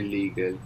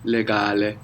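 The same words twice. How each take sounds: First: Said in the usual way. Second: "Legale" as leh-GAH-leh; Italian "Legale", first vowel as in elephant. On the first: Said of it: "So how would you say legal?". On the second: Shown as a demonstration. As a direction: open both E's in "Legale" to eh, stress the A. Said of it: "the E in Italian is gonna be more like elephant".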